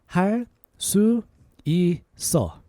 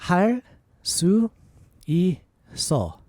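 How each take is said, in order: No difference in how they are said.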